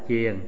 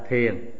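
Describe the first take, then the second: First: The word begins with a 'ch' sound. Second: The word begins with a 'th' sound. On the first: The speaker calls it right. "thay vì phải đọc là chiền" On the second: The speaker calls it wrong. "thì họ đọc là thiền"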